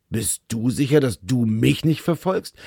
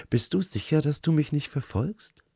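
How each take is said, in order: First: A touch gruffer. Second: Light teasing lilt, higher, stress on "du" in both lines; teasing question. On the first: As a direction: echo her question a bit curtly, stress on "sicher" and "nicht". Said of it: "es kam eine Spur schroffer heraus". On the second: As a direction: tease him, leaning on "du". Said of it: "Ihre Mundwinkel zuckten spöttisch". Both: Acted.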